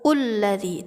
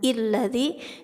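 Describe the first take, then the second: First: The word begins with a u vowel. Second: The word begins with an i vowel. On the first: "jangan juga ulladzi" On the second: "jangan illadzi"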